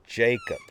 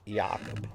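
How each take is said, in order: First: The name has an English pronunciation. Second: The name has a German pronunciation. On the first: "The name was said very clearly" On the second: "in German you would pronounce it"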